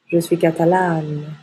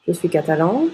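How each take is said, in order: First: Catalane with open a and held n; open mouth ending. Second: Catalan rising on a nasal vowel; nasal ending. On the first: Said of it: "et on ouvre la bouche". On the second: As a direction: leave the N silent in catalan. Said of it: "on ne prononce pas le N". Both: Shown as a demonstration.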